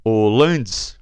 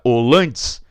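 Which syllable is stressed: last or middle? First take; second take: middle; middle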